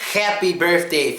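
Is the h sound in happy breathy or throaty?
throaty. The h is a harsh, throaty scrape. The speaker calls it wrong. "a lot of the Russian people say happy birthday"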